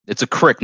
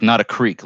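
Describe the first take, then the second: First: Crick with a short i; it's a crick, short i like Jeff; crick not creek. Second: Creek with a long ee; not a creek, long ee. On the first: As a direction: say it crick, rhyming with trick. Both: Shown as a demonstration. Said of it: "like Jeff says".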